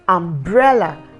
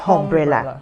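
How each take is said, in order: First: The word starts with a plain vowel. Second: The word starts with an h sound. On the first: The speaker calls it right. "you have umbrella" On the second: The speaker calls it wrong. "and not umbrella"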